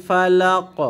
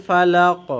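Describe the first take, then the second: Both takes have the same delivery.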